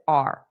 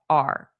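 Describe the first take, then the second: First: The word is reduced to a short 'r' sound. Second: The same.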